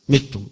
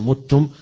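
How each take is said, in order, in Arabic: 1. الحركة الأولى صوت i. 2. الحركة الأولى صوت u. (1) "بالكسر" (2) "وقراءة الجمهور وغير هؤلاء يقرؤون"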